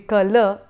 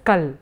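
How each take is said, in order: First: The word ends with a final vowel a. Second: The word ends on the bare consonant. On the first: This is the Sanskrit pronunciation. "which in Sanskrit would be Kala" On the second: This is the habit of Hindi speakers. "only the uh, consonant without the vowel A at the end"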